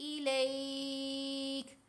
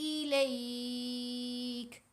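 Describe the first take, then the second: Both takes have the same delivery.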